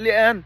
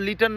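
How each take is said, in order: First: The middle t is replaced by a glottal stop. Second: The middle t sound is clearly pronounced.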